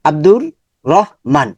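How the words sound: The name is broken by a pause inside. The speaker calls it wrong.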